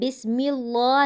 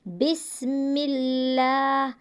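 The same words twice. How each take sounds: First: The L is pronounced heavy and full. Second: The L is pronounced thin and light. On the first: The speaker calls it wrong. "नहीं पढ़ रहे, ये तरीका गलत है" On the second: The speaker calls it right. "अब यहाँ पर हम बारीक पढ़ रहे हैं"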